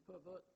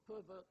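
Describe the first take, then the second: First: Pervert as per-VERT, second syllable stressed. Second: Pervert as PER-vert, first syllable stressed. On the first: Lecturer citing a related pair, pervert with second-syllable stress. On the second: Lecturer citing a related pair, pervert with first-syllable stress. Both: Shown as a demonstration. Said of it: "differ in stress".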